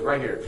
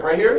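First: "Right here." stated without the questioning lift; confirming RIGHT HERE. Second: "Right here?" asked higher, louder, with rising tune; "Right here?" lifting at the end as a question. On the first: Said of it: "She goes". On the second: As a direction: check in surprise: "Right here?". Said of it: "He's like". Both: Retold or imitated.

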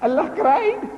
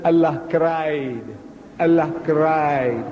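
First: High, rising echo in disbelief; acted shock, pitched way up on CRIED; incredulous question. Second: Very drawn-out acted announcement; slow, deliberate reply, stretched on CRIED; slow, grave statement. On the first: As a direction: throw it back as an astonished question. Reverend echoes it in disbelief. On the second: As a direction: stretch each word out slowly. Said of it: "slowly, he said".

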